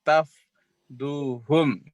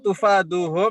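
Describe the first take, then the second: First: It starts with ta, with no vowel after f. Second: It starts with tu, with a vowel after f. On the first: This is an alternative reading. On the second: This is the usual reading.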